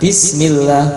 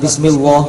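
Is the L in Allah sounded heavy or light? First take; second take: light; heavy. First: The L of Allah is light, with an A vowel. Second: The L of Allah is heavy, with an O vowel. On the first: The speaker calls it right. "sebelumnya kasrah maka dibaca A" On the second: The speaker calls it wrong.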